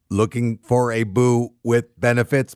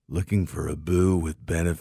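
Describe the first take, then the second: First: It is said in an imitation robot voice. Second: It is said imitating a man doing yoga. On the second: "next I got a guy doing uh, yoga"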